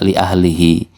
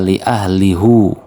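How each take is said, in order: First: The final vowel is an 'ee' sound. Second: The final vowel is an 'oo' sound. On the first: This follows the common Hafs reading. "dalam qiraah hafaz kita yang ada di mushaf kita" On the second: This follows Hamzah's reading. "Ini dalam qiraah Hamzah"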